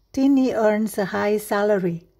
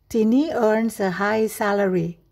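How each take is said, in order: No difference in how they are said.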